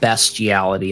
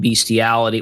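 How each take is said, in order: First: The first syllable sounds like 'best'. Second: The first syllable sounds like 'beast'. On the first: The speaker calls it right. "It's B E S T" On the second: The speaker calls it wrong. "it's not B E A S T"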